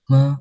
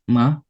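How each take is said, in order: First: The pitch dips low and then rises again. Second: The pitch rises from middle to high. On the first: "mobil sedang turun, lamban, lalu naik lagi" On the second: "nada kedua, nada naik"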